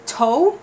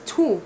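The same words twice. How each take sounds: First: TO said as "toe", with a long O; rule-based mispronunciation. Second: TO said as "too"; usual pronunciation. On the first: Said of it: "wouldn't it be toe?". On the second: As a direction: say TO with an oo sound. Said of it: "pronouncing that as two". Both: Shown as a demonstration.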